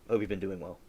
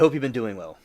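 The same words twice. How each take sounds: First: It is said at a quieter, normal volume. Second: It is said at a louder volume.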